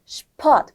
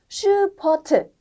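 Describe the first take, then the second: First: The sh and p sounds run together quickly. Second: A vowel separates the sh and p sounds. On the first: The speaker calls it right. "같이 빨리 말해야 돼요" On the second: The speaker calls it wrong. "하면 안 돼요"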